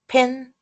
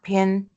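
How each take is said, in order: First: The p has a puff of air. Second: The p has no puff of air. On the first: The speaker calls it right. "That is the pronunciation that um, native speakers are going to make" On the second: The speaker calls it wrong. "Not the one that we use because we don't aspirate it"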